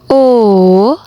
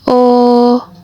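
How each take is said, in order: First: The vowel carries the third tone. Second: The vowel carries the first tone. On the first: "nada yang ketiga" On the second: "Mulai dari nada yang pertama"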